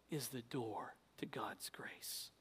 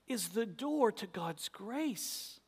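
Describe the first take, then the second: First: Soft whispered refrain. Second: Said in the usual way. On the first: Acted. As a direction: whisper it to them.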